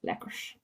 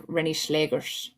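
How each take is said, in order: First: Breathy whispered echo of "Schlegers"; "Schlegers" whispered under the breath; whispering. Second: "Rennie Schlegers" said low and slow, imitating everyone; "Rennie Schlegers" drawn out in a low voice; Dutch name pronunciation. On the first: Retold or imitated. Echoing the name in a whisper. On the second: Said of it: "everyone being like".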